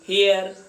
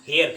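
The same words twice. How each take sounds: First: The word is said in an American accent. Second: The word is said in an Indian accent. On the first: "American लोग" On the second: "और हम हेयर करते हैं"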